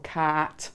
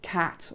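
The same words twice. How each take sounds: First: The vowel is drawn out long. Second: The vowel is short.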